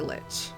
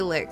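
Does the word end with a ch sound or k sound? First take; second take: ch sound; k sound. First: The word ends with a ch sound. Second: The word ends with a k sound. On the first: The speaker calls it right. "I would say lich" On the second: The speaker calls it wrong. "I hear other people say lick, and I feel like that's wrong"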